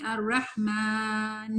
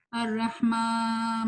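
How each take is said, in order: First: "الرحمن" slow, clean "ما" with no nasal, ghunna only on the final nun; without nasal. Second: "الرحمٰ" slow with a nasal "ما"; wrong nasal maa. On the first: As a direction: correct "الرحمن" with the nose kept out of "ما". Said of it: "بغیر غنہ کے". (بغیر غنہ کے "الرحمن") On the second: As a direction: push the "ما" into the nose, as a mistake. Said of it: "ما نہیں". (غلط غنہ والا "ما") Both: Shown as a demonstration.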